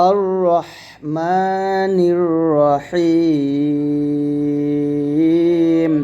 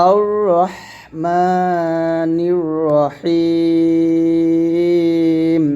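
The two takes are said the same way.

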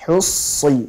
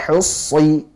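The two takes are said the same way.

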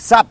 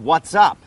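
First: Only a single short syllable is said. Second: The first two words are linked into one. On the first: "แล้วมีสั้นกว่านี้อีกคือ" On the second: "เราจะเชื่อมเสียงนะครับเป็น"

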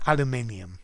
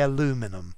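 First: It has five syllables, ending in 'nium'. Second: It has four syllables, ending in 'num'. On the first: "but aluminium" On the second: "the Americans say aluminum"

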